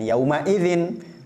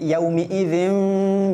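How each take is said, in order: First: The m is followed by an 'a' vowel. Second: The m is followed by an 'i' vowel. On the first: The speaker calls it wrong. "mimnya suka dibaca fathah" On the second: The speaker calls it right. "tapi yaumi idzin"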